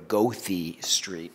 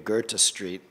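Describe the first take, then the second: First: Goethe is said with an American pronunciation. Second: Goethe is said with a German pronunciation. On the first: This is how locals say the street name. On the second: Local cab drivers do not understand it.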